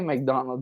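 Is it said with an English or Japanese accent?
English. It is said with a plain English accent.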